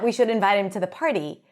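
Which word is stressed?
We. The word we is stressed with higher pitch. Those speaking, not others, should invite him. "it should be us who invite him to the party"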